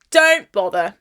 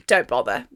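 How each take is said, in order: First: Said in the usual way. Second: "don't bother." dropped very low and softer, flat and final; "don't bother." muttered low and softer as a deadpan warning; deep dismissive warning. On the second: Shown as a demonstration. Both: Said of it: "repeats warning for emphasis".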